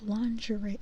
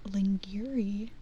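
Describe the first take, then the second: First: The word is said in its usual spoken form. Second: The word is read out letter by letter. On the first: "but it's pronounced lingerie" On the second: "lingerie is spelled like lingerie"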